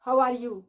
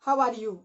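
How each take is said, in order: The two takes are said the same way.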